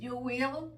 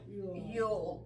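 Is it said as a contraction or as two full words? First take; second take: full words; contraction. First: It is said as two full separate words. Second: It is said as one short contracted word.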